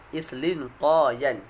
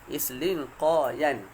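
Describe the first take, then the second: Both takes have the same delivery.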